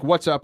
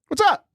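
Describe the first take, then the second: First: It is said calmly with little pitch movement. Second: It is said with more lively pitch movement. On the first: "I started not yelling, but I said" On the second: "I added a little bit more inflection"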